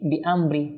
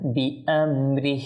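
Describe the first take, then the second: First: No final 'h' sound is heard. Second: A final 'h' sound is clearly heard. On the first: The speaker calls it wrong. "হাত একেবারে অদৃশ্য হয়ে গেল" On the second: The speaker calls it right. "স্পষ্ট হাতে যেন বোঝা যায়"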